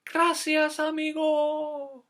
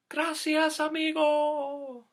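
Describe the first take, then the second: First: Put-on high, drawn-out grateful call for kids to copy; high slow water voice demo. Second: High, drawn-out grateful call; the creek thanking its friend; high slow water voice. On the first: Shown as a demonstration. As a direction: model the line slowly, high. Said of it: "Can you try that?". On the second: Acted.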